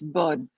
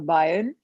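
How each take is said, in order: First: The name is said with one syllable, like burn. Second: The name is said with two syllables, like Brian. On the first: The speaker calls it right. "It's burn. That's how you pronounce" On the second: The speaker calls it wrong. "It's not Brian or Brian"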